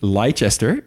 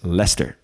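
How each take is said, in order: First: The word is said with three syllables. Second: The word is said with two syllables. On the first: The speaker calls it wrong. "Dus het is niet Leicester" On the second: The speaker calls it right. "maar het is Leicester"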